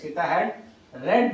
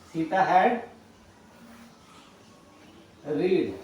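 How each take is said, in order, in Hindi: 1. आखिरी शब्द 'red' जैसा सुनाई देता है। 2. आखिरी शब्द 'reed' जैसा सुनाई देता है।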